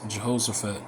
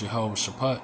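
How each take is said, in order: First: The name begins with a 'juh-hosh' sound. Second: The name begins with a 'yah-way' sound. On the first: The speaker calls it wrong. "in the scriptures it, it says Jehoshaphat" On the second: The speaker calls it right. "the proper way to say it is Yahweh Shaphat"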